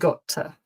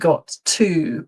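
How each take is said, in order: First: The two words are reduced and run together. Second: Both words are pronounced fully and separately. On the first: The speaker calls it right. "but got to" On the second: The speaker calls it wrong. "It's not got to"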